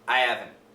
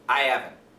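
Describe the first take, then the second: First: The H in haven't is dropped entirely. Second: The H in haven't is dropped entirely.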